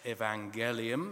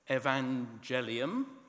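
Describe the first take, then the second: First: The G is pronounced hard, as in go. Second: The G is pronounced soft, like a J.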